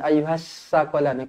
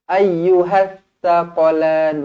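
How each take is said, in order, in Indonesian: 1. Konsonannya bunyi s yang mendesis. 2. Konsonannya bunyi th yang lembut. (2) "Itu cara sebut huruf ta"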